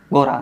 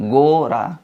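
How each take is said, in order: First: गोरा said short, first o not held; unstretched wrong reading. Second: गोरा with the first o held long; slightly stretched. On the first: Teacher showing students what to avoid, word cut short. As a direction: rush through गोरा without drawing out the o. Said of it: "गोरा नहीं पढ़ेंगे". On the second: Teacher giving students the correct reading, vowel drawn out. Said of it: "थोड़ा सा खींचेंगे". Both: Shown as a demonstration.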